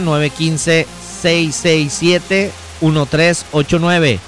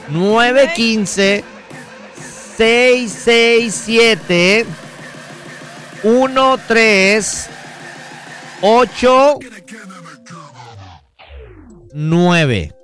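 First: The number is said at normal speed. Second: The number is said slowly.

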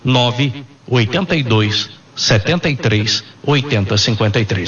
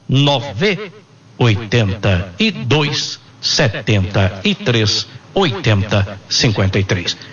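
First: The number is said at normal speed. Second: The number is said slowly.

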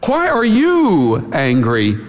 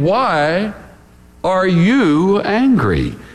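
First: The stress is on "you". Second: The stress is on "angry".

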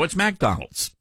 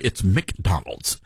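First: McDonald's begins with a 'mac' sound, Southern style. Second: McDonald's begins with a 'mick' sound, northern style.

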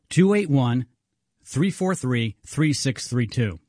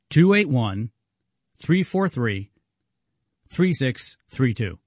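First: The number is said at normal speed. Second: The number is said more slowly.

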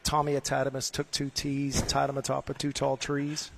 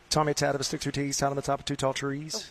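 First: It is said at normal speed. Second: It is said fast.

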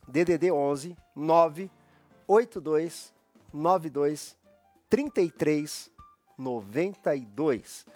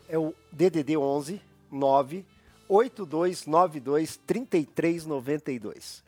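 First: The number is read slowly with pauses. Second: The number is read at normal speed.

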